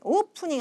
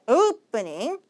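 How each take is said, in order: First: The first vowel is a plain single vowel. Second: The first vowel glides like a diphthong. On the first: The speaker calls it wrong. "opening 하면 안 돼요" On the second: The speaker calls it right. "이중 모음에 가깝는데"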